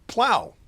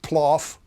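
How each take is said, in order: First: The word rhymes with cow. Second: The word rhymes with cough. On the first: The speaker calls it right. "but plow" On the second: The speaker calls it wrong. "not ploff"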